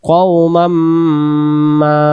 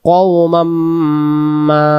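First: The final 'ma' vowel is drawn out long. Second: The final 'ma' vowel is drawn out long.

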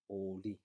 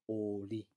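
No difference in how they are said.

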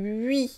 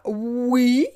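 First: It sounds sharper and higher, a front rounded glide. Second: It sounds like the ordinary word for yes. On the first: The speaker calls it right. "C'est plus, plus aigu" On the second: The speaker calls it wrong. "C'est pas oui, comme oui, yes, non"

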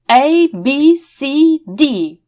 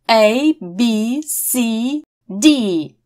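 First: The letters are said quickly. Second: The letters are said slowly. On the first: "Второй раз мы вместе с вами будем произносить все быстрее" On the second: "сначала медленно"

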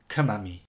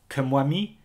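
First: No 'w' sound follows the 'm'. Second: A 'w' sound follows the 'm'. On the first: "while others may prefer" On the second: "Some people may say"

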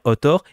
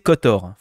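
First: The word starts with a vowel, no K sound. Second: The word starts with a pronounced K sound. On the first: The speaker calls it wrong. "faut pas dire Otor" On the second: The speaker calls it right. "il faut prononcer Kotor"

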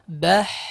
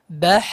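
First: The final breathy sound flows out fully. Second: The same.

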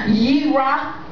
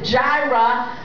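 First: The word begins with a Y sound. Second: The word begins with a J sound. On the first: The speaker calls it right. "so it would be a Y sound" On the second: The speaker calls it wrong. "these people pronounce it Jirah"

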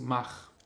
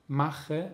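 First: The final e sound is dropped. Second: The final e sound is pronounced.

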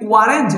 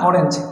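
First: The word begins with a w sound. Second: The word begins with a plain o vowel. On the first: The speaker calls it wrong. "এখানে তো এটা ওয়ায়ের মতো উচ্চারণ নেই" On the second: The speaker calls it right. "এখানে এটা হয়েছে ও এর মতো উচ্চারণ হয়েছে"

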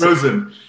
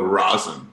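First: The first vowel sounds like the vowel in rose. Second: The first vowel sounds like the vowel in raw. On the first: The speaker calls it right. "It is Rosen. Rose with an N" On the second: The speaker calls it wrong. "Most common mispronunciation, people go Rosen, like R-A-W"

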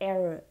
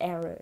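Both takes have the same delivery.

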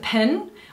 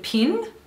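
First: The vowel is said with a New Zealand accent. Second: The vowel is said with an Australian accent. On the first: "so it's a pin" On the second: "which is the way Australians say it"

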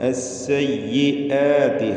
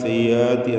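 First: A clear glottal stop is heard mid-word. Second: The glottal stop is dropped and slurred over. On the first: The speaker calls it right. "അസ്സയ്യിആതി ഹംസ" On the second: The speaker calls it wrong. "ഹംസ കേൾപ്പിക്കാണ്ട് അങ്ങനെ അവ്യക്തമാക്കി പറയും"

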